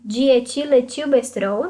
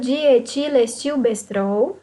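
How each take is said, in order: First: The word is said quickly and gets jumbled. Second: The word is said slowly and carefully. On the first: The speaker calls it wrong. "Se eu falar rápido, eu me embanando" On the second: The speaker calls it right. "Tem que falar devagarzinho"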